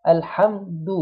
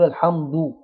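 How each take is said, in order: First: الحمد with a thin d, then a quick "u"; light dal, quick rounding. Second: الحمد ending in a dark, rounded "du"; thickened final "du" in الحمد; wrongly heavy dal. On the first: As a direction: start the d of الحمد spread, round only afterwards. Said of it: "وأنا مبتسم وأضمه بسرعة". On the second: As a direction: round the lips from the start of the d in الحمد. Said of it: "لو جبته مضموم من أوله هيكون مفخم". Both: Shown as a demonstration.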